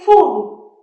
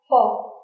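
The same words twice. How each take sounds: First: The vowel is a long oo sound. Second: The vowel is a short u sound. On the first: The speaker calls it wrong. "You don't say full. ... u is not that long" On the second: The speaker calls it right. "You want to say a short u. ... that's the correct pronunciation"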